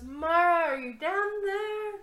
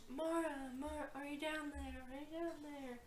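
First: High, loud call into a pit. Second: Soft, fading echo of a call. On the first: Ez leans over the pit for Mara, calling loudly. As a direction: holler it down to someone far below. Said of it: "leans over and goes". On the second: Pit returns the call for Mara, echoing faintly. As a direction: repeat it fainter each time, like an echo. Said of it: "Echoes back up". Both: Acted.

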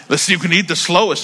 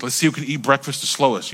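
First: Amused chuckling retelling; laughing. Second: Said in the usual way. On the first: Retold or imitated. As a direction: laugh while quoting the brother. Repeats brother's line laughing. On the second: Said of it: "my brother said".

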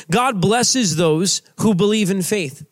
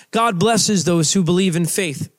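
First: Slow, deliberate preacher line; slow emphatic. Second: Said in the usual way. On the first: Shown as a demonstration. Preacher stating his main point slowly. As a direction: spell it out word by word.

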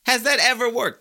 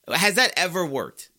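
First: Much higher, loud incredulous repeat; second take pushed up to a near shout; ranting, louder. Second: Ranting. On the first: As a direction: hammer the question harder in disbelief. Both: Real, not acted. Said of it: "I know I'm ranting today".

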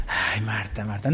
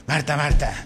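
First: "Ay, Marta, Marta" sighed much lower and softer; soft sighing version. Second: Low, firm "Marta, Marta" in a changed voice; one way to say it. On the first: Pastor imagining Jesus sighing at Marta, very soft and low. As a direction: let "Ay, Marta" fall away gently. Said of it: "no sabemos". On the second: Pastor trying out how Jesus called Marta, low and firm. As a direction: say "Marta, Marta" lower and firmer than your own voice. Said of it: "qué pronunciación, así como". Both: Shown as a demonstration.

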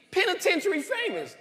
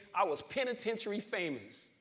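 First: Much higher and louder, laughing at the irony of "Penitentiary famous"; amused repeat. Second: Said in the usual way. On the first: Real, not acted. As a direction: toss back "Penitentiary famous" up high with a laugh. Repeats phrase, crowd laughing.

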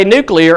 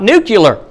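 First: Nuclear pronounced NOO-klee-er; careful nuclear, klee in the middle; NUCLEAR as spelt. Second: Nuclear pronounced NOO-kyuh-ler; nuclear mispronounced as nucular. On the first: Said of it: "let people in that say". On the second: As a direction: say nuclear with kyu-ler at the end. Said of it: "and not nuclear". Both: Shown as a demonstration.

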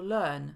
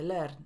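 First: Learn with long neutral vowel, no r; long schwa in learn. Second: Learn with short e and sounded r; wrong Polish vowel. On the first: Teacher giving the English for uczyć się, learn with long schwa. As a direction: draw out learn on one schwa. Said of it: "również długie szła". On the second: Teacher showing the mistake, learn with e and r. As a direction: say learn as a Pole would, e plus r. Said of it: "a nie". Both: Shown as a demonstration.

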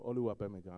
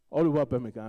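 First: Said in the usual way. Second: Yoruba-accented name. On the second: Shown as a demonstration. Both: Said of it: "probably not saying it right with the Yoruba accent".

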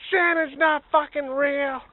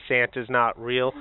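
First: Much higher, louder, slow shout; loud reveal. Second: Slow, deliberate reading; solemn reveal. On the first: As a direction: tear the beard off and bellow it. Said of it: "be like". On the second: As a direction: read the note with weight. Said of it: "a note in it". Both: Pretend.

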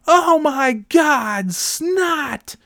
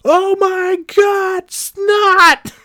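First: Very high, slow, shrieking mock yell; imitating a shriek. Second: Extremely high, louder, slow shriek; mocking the old monitor's horror, extreme high shriek; hammed-up shriek. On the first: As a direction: shriek it like a scandalised playground monitor. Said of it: "She's like, yelling". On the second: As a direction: go over the top, as shrill as you can. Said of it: "that's what they fucking said".

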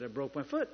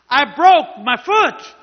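First: Said in the usual way. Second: Slow, high, very loud retort; angry yell. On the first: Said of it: "were having a yelling match". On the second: Retold or imitated. Fed-up man answering the healer's repeated question, angry yell. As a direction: yell it back word by word, exasperated. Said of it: "He and I were, now were having a yelling match".

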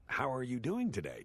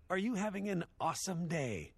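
First: Said in the usual way. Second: Imitating the counter girl, pitched way up; exaggerated perky customer-service chirp. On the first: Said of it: "Not, "How are you doing today?". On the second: Shown as a demonstration. Quoting the fast-food girl's greeting, mock chirpy. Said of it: "the girl behind the counter said".

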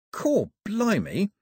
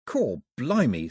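First: Slow, high-pitched astonishment; drawn-out, squeaky exclamation of wonder; amazed exclamation. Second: Slow, drawn-out thought; understated astonished aside; inward amazement. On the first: The astonished thought repeated. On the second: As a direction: think it aloud in slow wonder. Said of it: "thought Daphne". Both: A narrator's reading.

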